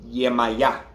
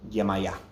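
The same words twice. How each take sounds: First: The name is said slowly. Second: The name is said at normal speed.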